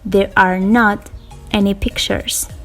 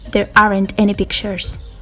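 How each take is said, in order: First: Are and not are said as two full words. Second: Are and not merge into one contracted word. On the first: "Mantengo el are, pero agrego el not" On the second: "puede ser contraído y puede leerse como aren't"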